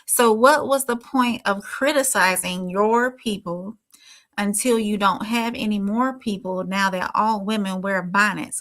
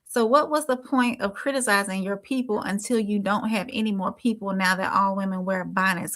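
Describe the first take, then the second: First: It is read slowly. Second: It is read at normal speed.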